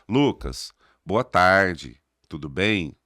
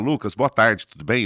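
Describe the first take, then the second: First: It is spoken at a slow, drawn-out pace. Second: It is spoken at a quick, brisk pace. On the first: The listener gets bored and speeds it up. The speaker calls it wrong. "vai dormir no meio do caminho" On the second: The listener has no need to speed it up. The speaker calls it right. "não deu tempo nem de pa- acelerar"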